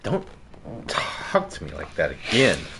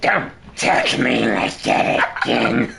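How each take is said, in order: First: It is said in a normal voice. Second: It is said in a screechy, changed voice.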